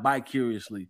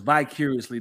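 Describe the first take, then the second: First: The word begins with a B sound. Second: The word begins with a V sound. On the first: The speaker calls it wrong. "not bicuriously" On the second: The speaker calls it right. "the word is vicariously"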